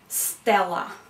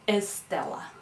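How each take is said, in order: First: The word begins directly with an s sound. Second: A vowel sound is added before the s.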